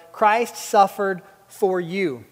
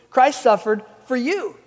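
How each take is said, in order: First: Slow, weighty reading of Christ suffered for you; slow emphatic reading. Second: Christ hit first and hardest, for you pressed home; stress on Christ. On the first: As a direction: let each word land. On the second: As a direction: make it personal, punch Christ. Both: Shown as a demonstration. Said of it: "makes it real personal".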